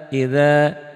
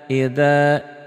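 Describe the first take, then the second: Both takes have the same delivery.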